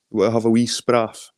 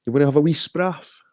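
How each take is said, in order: First: Said in the usual way. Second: Lifted pitch on the second take; a friendly Scots invitation pitched up; higher, playful repeat. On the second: Shown as a demonstration. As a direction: say it again higher, teasing. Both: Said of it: "spraff's a Scottish word for".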